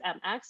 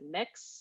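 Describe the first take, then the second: First: It is spelled out as two letters. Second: It is said as a single syllable. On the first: "is it M X?" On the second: "I think it's mix. That's how it's pronounced"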